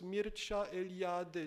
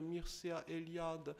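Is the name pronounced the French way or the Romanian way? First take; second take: Romanian; French. First: The name is said with Romanian sounds. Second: The name is read with French sounds, ending in 'ea'. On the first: "en roumain, son nom et prénom se prononcent" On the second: "son prénom se termine par Ea"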